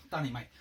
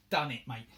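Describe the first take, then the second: First: North London accent. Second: A louder, chirpy North London "Done it, mate"; North London accent. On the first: Repeating the triumph to the camera in a North London accent. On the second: Crafter announcing the finished job in a North London accent. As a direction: drop into a casual North London accent, pleased with yourself. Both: Real, not acted. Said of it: "I was talking like a North London accent in that".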